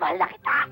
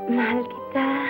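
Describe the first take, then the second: First: It is said loudly and harshly. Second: It is said softly and tenderly.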